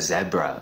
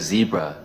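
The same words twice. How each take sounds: First: It is said in a South African accent. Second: It is said in an American accent. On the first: "South Africans call it a zebra" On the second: "Americans call this a zebra"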